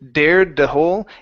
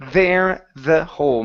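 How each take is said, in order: First: The first word starts with a d sound. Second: The first word starts with a th sound. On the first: The speaker calls it wrong. "instead of dared the whole" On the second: The speaker calls it right. "it's th- there the whole. Make sure your tongue is between your teeth"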